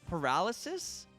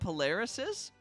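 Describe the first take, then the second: First: The word begins 'par' with 'r' before 'l'. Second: The word begins 'pol' with 'l' before 'r'. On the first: The speaker calls it right. "How do you actually say it?" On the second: The speaker calls it wrong. "Have I always said that word wrong?"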